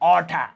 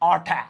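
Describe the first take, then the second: First: 'Out of' is blended into 'outta'. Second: The same.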